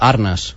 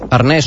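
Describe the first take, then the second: First: The stress is on the first syllable. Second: The stress is on the last syllable. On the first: The speaker calls it right. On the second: The speaker calls it wrong. "Arnès no"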